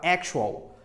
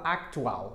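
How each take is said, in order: First: "actual" as AK-shu-al, with a sh sound; English pronunciation. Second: "actual" with a hard k-t, as ak-tu-AL; Portuguese-style reading. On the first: Teacher modelling the English word for learners, careful English pronunciation. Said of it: "Fala actual". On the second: Teacher showing learners what not to say, wrong Portuguese-style pronunciation. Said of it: "você não fala actual". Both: Shown as a demonstration.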